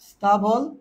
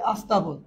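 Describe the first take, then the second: First: The word begins directly with the consonant cluster. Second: An extra vowel is added before the consonant cluster.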